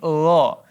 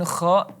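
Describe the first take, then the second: First: It is said as a soft throaty gha. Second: It is said as a harsh scraping kha. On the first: The speaker calls it right. "tapi gha" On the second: The speaker calls it wrong. "bukan kha"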